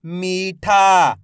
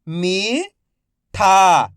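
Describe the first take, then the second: First: "मीठा" joined as one word, long vowels; syllables blended. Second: "मीठा" split into मी, pause, ठा, each drawn out; syllable by syllable. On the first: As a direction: say "मीठा" in one connected stretch. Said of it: "तो मिलके बन जाएगा". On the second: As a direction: sound out "मीठा" slowly, मी rising, ठा falling. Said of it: "एक एक अक्षर का उच्चारण". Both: Shown as a demonstration.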